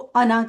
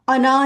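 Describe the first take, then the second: First: The final vowel is short. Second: The final vowel is stretched long. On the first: The speaker calls it right. "अना को अना करके पढ़ना" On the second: The speaker calls it wrong. "अना नहीं करना। इसको लंबा नहीं करना"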